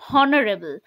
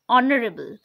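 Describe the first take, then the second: First: The word starts with an H sound. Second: The word starts with a vowel sound. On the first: The speaker calls it wrong. "If we will pronounce the H, then the word will sound like this" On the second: The speaker calls it right. "We make it silent. Okay, so the word will pronounce like"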